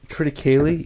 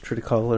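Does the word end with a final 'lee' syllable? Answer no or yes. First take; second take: yes; no. First: The word ends with a final 'lee' syllable. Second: The word ends without a final 'lee' syllable. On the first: "you say the Lee part too?" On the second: "It's not just Triticale"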